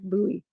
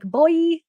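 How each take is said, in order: First: The word does not sound like 'boy'. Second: The word sounds exactly like 'boy'. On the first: "I know it's like buoy" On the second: "I'm going to say boy, like boy"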